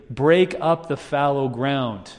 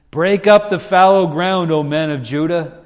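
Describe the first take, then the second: First: Slow, even read of the verse; slow scripture reading. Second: Louder, higher proclamation; preacher proclaiming the verse, louder and higher. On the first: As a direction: lay the verse down slowly. Verse first read slowly. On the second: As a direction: ring it out like a prophet. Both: Shown as a demonstration.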